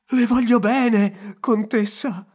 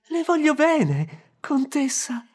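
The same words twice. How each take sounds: First: It is said in a scared voice. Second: It is said in an astonished voice.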